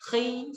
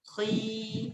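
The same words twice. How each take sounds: First: The vowel is short, held for one beat. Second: The vowel is long, held for two beats. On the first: "khi satu harokat" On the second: "tapi ketika kita panjangkan"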